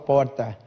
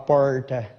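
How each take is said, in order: First: It is said with a São Paulo capital accent. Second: It is said with an interior retroflex R.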